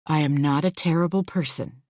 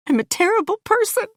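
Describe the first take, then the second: First: Said in the usual way. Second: Very high, rushed tearful wail; crying out. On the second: A narrator's reading. Louise confessing while being comforted, crying. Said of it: "I cry".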